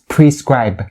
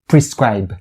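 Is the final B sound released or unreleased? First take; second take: released; released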